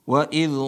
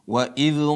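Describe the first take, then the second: No difference in how they are said.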